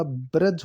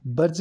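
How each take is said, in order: First: ब्रज said "braj", r before the vowel; correct pronunciation. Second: ब्रज said "barj", r closing the syllable; wrong pronunciation. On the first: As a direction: say ब्रज as "ba-raj". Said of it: "ये शुद्ध है". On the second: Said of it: "ब्रज नहीं होता". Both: Shown as a demonstration.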